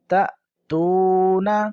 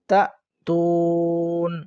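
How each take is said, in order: First: The word ends with a short vowel. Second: The word stops on the final consonant.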